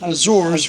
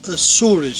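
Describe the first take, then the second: First: The name is said with an English pronunciation. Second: The name is said with a Portuguese pronunciation. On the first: "we pronounce in English Azores with the Z" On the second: "In Portuguese we pronounce Açores"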